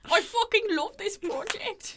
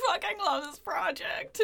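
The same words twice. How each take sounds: First: Slow, high hammed-up Irish accent. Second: Mock Irish brogue; a light Irish lilt, hammed up; Irish accent. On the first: Mocking Churchill's love of the project in Irish accent. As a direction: drag it out in a comic Irish brogue. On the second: Imitating Churchill in a bad Irish accent. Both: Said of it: "He's not Irish".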